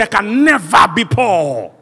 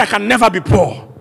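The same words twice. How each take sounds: First: Loud, high, drawn-out declaration; bold declaration. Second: Said in the usual way. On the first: Shown as a demonstration. Preacher has the congregation declare they're never poor, bold declaration. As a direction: declare it boldly, stretching the words. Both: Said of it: "No, say it with boldness".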